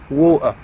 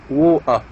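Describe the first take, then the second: No difference in how they are said.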